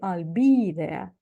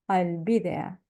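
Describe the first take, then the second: First: The vowel in 'be' is long. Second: The vowel in 'be' is short. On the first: The speaker calls it wrong. "We don't say I'll be there" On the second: The speaker calls it right. "which becomes short E"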